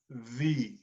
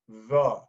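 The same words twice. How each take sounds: First: The vowel is a full 'ee' sound. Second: The vowel is a weak, short 'uh' sound. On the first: The speaker calls it wrong. "not the" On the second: The speaker calls it right. "I want you to use the schwa sound"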